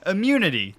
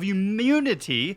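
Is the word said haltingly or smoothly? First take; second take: smoothly; haltingly. First: The word comes out clean and fluent. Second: The word comes out stumbling and unclear. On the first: The speaker calls it right. "that's a much better pronunciation that time" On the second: The speaker calls it wrong. "I really struggled saying that word there"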